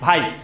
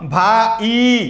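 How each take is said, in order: First: The vowels glide together into one syllable. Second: The vowels are split into two separate syllables. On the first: The speaker calls it right. "আমরা কিন্তু ভাইকে দুইবারে উচ্চারণ করি না, আমরা বলি" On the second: The speaker calls it wrong. "তুমি কি বলো ভা ই, ভা ই বলো? কখনোই বলো না।"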